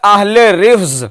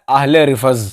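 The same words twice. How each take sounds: First: रिफ्ज as one syllable, rifz; correct pronunciation. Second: रिफज in two syllables, ri-faz, lower; imitated mispronunciation. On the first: Shown as a demonstration. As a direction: join f and z at the end of रिफ्ज. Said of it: "एक लफ्ज बोला जाता है". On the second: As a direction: mimic रिफज with an a before z. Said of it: "हजरत उसे बोलते हैं".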